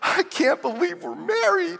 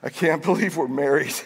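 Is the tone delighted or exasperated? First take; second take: delighted; exasperated. First: The voice sounds happy and amazed. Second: The voice sounds weary and fed up. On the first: Being married feels like a wonderful blessing. "some days we would just say" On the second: Being married feels like a frustrating burden. "And other days it was like"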